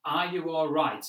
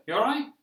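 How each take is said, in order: First: Said in the usual way. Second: Much higher, louder, rising you all right; breezy passing greeting, not a real question; casual British greeting, higher and louder. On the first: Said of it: "they don't say the full sentence". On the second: Shown as a demonstration. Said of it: "They'll just say".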